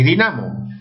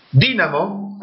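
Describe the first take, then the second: First: "dinamo" stressed di-NA-mo; stress on middle syllable. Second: "Dínamo" stressed DÍ-na-mo; stress on first syllable. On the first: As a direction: move the weight of "dinamo" onto NA. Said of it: "palabras con doble acentuación". ("dinamo" con acento en NA) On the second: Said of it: "que es la tilde optativa". ("Dínamo" con acento en DÍ) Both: Shown as a demonstration.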